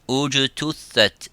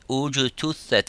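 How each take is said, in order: No difference in how they are said.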